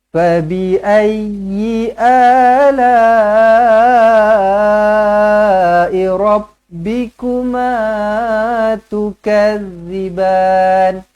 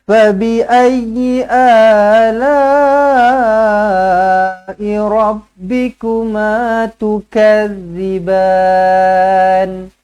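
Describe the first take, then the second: Both takes have the same delivery.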